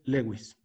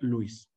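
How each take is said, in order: First: The name is pronounced the Spanish way. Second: The name is pronounced the English way. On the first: It follows the speaker's own language. "tienes que pronunciarlo como se pronuncia en tu propio idioma" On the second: It follows the name's original language. "en el idioma original se pronuncia Luis"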